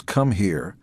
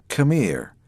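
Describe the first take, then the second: First: Said in the usual way. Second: "Come here" pitched higher with a menacing edge on "Come"; threatening come here. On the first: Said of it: "and that meant, "Come here". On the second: Retold or imitated. A bully calling a kid over, menacing. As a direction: warn that a beating is coming. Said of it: "I'm going to kick your ass".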